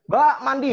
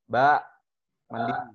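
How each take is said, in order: First: It is called out at the highest pitch. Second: It is called out at a raised pitch. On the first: The child still did not listen, so the parent escalates further. "Dan naik seterusnya" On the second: The parent calls the child the first time. "Kita sering kali di oktav lima"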